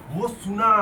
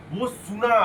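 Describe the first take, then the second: No difference in how they are said.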